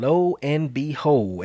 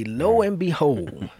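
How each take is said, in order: First: Put-on slow, drawn-out old-timer phrasing; lightly voiced Grandpa, slow; Grandpa's phrase. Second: Put-on slow, higher old-timer phrasing; lightly voiced Grandpa, drawn out; Grandpa's phrase. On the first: Quoting Grandpa's saying, slow and drawn out. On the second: Repeating Grandpa's saying, higher and slow. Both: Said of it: "as Grandpa would say".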